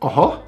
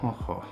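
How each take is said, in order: First: The word sounds surprised. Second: The word sounds sad. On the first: The speaker is surprised. "Like surprise" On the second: The speaker feels sad.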